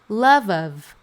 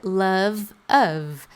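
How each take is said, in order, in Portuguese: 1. As duas palavras são ditas juntas, como se fossem uma só. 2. As duas palavras são ditas separadamente.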